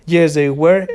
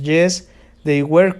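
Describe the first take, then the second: First: Said in the usual way. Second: Yes, they were, drawn out slowly with a rise on were; slow model answer. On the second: Shown as a demonstration. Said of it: "Ya sabemos". (respuesta modelo lenta, alargando "were" con subida)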